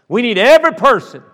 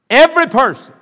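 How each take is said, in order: First: Emphatic plea. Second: Louder repeat. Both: Real, not acted.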